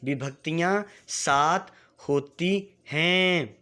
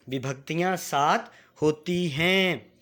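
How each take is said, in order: First: Slow, drawn-out model line for pupils to echo; slow teacher demonstration; slow for repeating. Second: Said in the usual way. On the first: Shown as a demonstration. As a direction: say it slowly so the class can follow. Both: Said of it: "मेरे साथ एक बार उच्चारण करना है".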